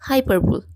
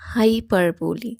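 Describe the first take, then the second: First: The word ends with an l sound. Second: The word ends with an ee sound. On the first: The speaker calls it wrong. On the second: The speaker calls it right.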